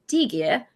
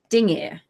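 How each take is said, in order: First: It has a plain g with no nasal sound. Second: It has a nasal ng sound before the g. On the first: The speaker calls it wrong. "you don't say digir" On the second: The speaker calls it right. "you say dingir, which sounds like two syllables"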